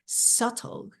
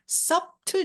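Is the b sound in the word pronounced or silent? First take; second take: silent; pronounced. First: The b sound is silent in the word. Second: The b sound is pronounced in the word. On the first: The speaker calls it right. "여기서 B가 발음이 안 나요. 이걸 묵음이라고 하는데요" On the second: The speaker calls it wrong. "no, no, no"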